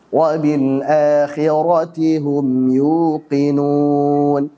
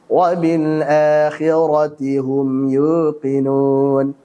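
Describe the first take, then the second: First: The lips are fully rounded on the u. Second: The lips are weakly rounded on the u. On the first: The speaker calls it right. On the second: The speaker calls it wrong. "Ini kurang monyong ya"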